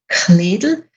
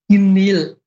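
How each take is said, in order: First: The K is strongly aspirated, western Tyrolean style. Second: The K is weakly aspirated, more eastern style.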